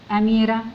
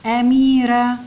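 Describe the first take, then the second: First: Said in the usual way. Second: أميرة loud, with its vowels drawn out; reading out clearly. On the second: Shown as a demonstration. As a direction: call out أميرة slowly and loudly for the class. Teacher reads the word out first.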